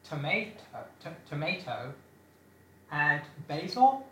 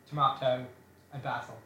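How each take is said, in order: First: It is said in an American accent. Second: It is said in a non-American accent. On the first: "I know we have some American listeners, and they would pronounce it" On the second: "you would all pronounce it tomato and basil"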